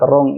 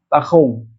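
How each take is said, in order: First: The R is pronounced as a clear R. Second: The R sounds between H and R.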